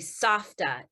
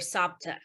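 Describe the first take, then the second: First: The middle consonant is an f sound. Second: The middle consonant is a p sound. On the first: This is the real Hebrew word. The speaker calls it right. "It's actually Safta in Hebrew" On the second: This is how the children said it. The speaker calls it wrong. "we called her Sapta"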